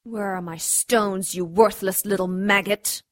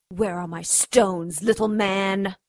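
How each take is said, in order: First: Cold belittling sneer. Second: Slow, pressing threat; menacing demand. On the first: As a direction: sneer down at a worm. Twisting his broken nose. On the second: Demanding the stones again. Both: Acted.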